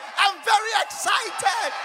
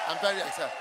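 First: It sounds lively and enthusiastic. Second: It sounds flat and unenthusiastic.

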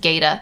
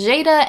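First: The first consonant is a hard g sound. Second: The first consonant is a soft g sound. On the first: This is the Galician pronunciation. "in Galego it's pronounced as" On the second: This is the Portuguese pronunciation. "in Portuguese it's pronounced as"

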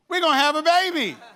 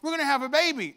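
First: The voice sounds bright and excited. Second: The voice sounds hesitant and unhappy. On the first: The speaker happily announces the news to everyone. "all of a sudden it came out and I'm like, hey, man, everybody" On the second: The speaker is not yet ready to accept the news. "the way I kept saying the same thing, but the tone changed"

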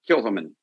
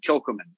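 First: The C sound is nearly silent. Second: The C sound is clearly pronounced. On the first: The speaker calls it right. "the C is almost silent" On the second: The speaker calls it wrong. "this one I know is not right"

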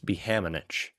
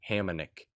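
First: The name ends with a ch sound. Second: The name ends with a k sound. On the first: The name is said the way of its country of origin. "If they actually honor their Czechian or Slovakian" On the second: The name is said the American way. "They're from America, they're going to go with the K"

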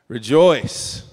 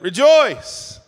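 First: It is said with moderate excitement. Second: It is said with stronger, louder excitement.

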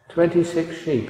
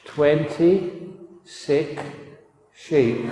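First: It is said at normal, quick pace. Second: It is said slowly and deliberately.

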